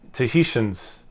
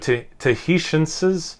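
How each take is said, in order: First: The sounds are reduced and loosely articulated. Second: Every sound is articulated with exaggerated care. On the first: "then I'm underpronouncing it" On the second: "I'm overpronouncing it"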